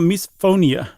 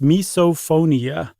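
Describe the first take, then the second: First: The O sound is swallowed as the voice hitches. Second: The O sound is clearly and fully pronounced. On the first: "there was an O in there somewhere, but my voice hitched" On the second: "I articulated it clearly, the O"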